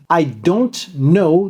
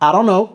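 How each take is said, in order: First: Every syllable of the phrase is said fully. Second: The phrase is shortened and blended together.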